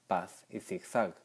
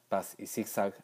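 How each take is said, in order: The two takes are said the same way.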